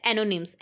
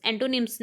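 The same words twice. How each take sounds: First: एनोनिम्स said as e-no-nims, with no t sound; एनोनिम्स spoken as the right form; correct pronunciation. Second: एंटोनिम्स said with an n-t, en-to-nims; एंटोनिम्स, the form not to use; rejected pronunciation. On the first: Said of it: "इसका pronunciation होता है". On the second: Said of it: "एंटोनिम्स नहीं होता". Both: Shown as a demonstration.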